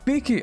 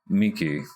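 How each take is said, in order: First: It is said high-pitched and spirited. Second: It is said flatly, without spirit.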